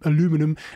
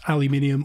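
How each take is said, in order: First: It is said the American way. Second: It is said the non-American, British way.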